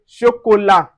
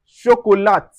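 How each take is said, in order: First: Chocolat with the T silent; correct chocolat. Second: Chocolat with the final T sounded; wrong chocolat. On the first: Teacher giving the right chocolat, no T. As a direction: end chocolat on the vowel. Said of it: "we say chocolat". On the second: Teacher showing the mistake in chocolat. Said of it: "We don't say ch-, chocolat". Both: Shown as a demonstration.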